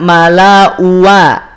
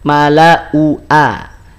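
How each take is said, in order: First: A w glide joins the last two vowels. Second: A glottal stop separates the last two vowels. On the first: The speaker calls it wrong. "Tidak mala uwa. Awas" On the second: The speaker calls it right. "Mala u a. Jelas?"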